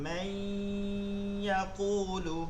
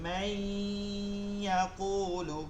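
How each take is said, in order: First: The n sound merges nasally into the y. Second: The n sound merges nasally into the y.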